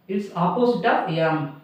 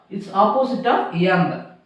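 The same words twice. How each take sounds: The two takes are said the same way.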